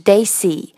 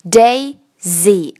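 First: The middle consonant is a hissing s sound. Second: The middle consonant is a buzzing z sound. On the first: The speaker calls it wrong. "而不是daisy" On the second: The speaker calls it right. "它不再发s，它发z，daisy"

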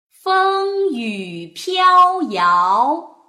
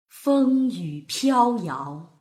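First: It is read slowly with very clear articulation. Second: It is read faster with expressive feeling.

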